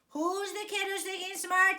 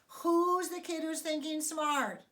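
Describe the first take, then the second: First: It is said somewhat louder than normal. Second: It is said at a normal volume.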